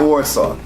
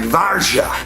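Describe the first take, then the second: First: The name is said with an American English pronunciation. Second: The name is said with a Polish-like pronunciation. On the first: The speaker calls it wrong. "it's not Warsaw" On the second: The speaker calls it right. "Dad used to say something like Varsha"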